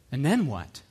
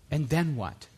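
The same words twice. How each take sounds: The two takes are said the same way.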